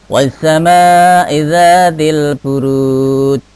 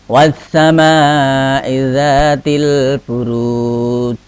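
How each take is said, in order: The two takes are said the same way.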